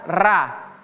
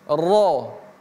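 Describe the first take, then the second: First: The r is light with an open a vowel. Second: The r is heavy with a rounded o vowel. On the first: The speaker calls it wrong. "tidak ada ra" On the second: The speaker calls it right. "tapi ro"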